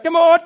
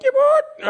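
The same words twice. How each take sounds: First: Loud high call to the flock; yelling. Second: Put-on much higher, laughing kid's yell; seven-year-old calling. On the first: Retold or imitated. Grown man calling sheep in from the paddock, loud high yell. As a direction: shout it out to the far paddock. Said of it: "you'd literally walk out the back". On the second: Little Rowan as a seven-year-old calling the sheep, high laughing yell. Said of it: "little Rowan is kind of like a seven-year-old".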